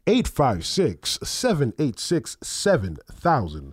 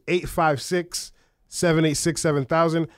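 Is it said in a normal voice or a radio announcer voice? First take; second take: radio voice; normal voice. First: It is said in a put-on radio announcer voice. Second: It is said in her normal speaking voice.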